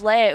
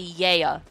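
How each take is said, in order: First: The name begins with an L sound. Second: The name begins with a Y sound. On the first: "let's just say Leia" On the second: "she used to pronounce it with a Y instead"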